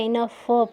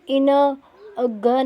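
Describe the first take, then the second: First: The word ends with an f sound. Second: The word ends with a g sound. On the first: The speaker calls it right. "इन फ पढ़ते हैं" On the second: The speaker calls it wrong. "इन ग नहीं पढ़ता"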